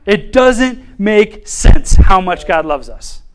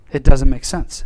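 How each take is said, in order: First: Slow, each word weighed, with a laugh; "It doesn't make sense" drawn out in amazement; slow emphatic wonder. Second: Said in the usual way. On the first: Shown as a demonstration.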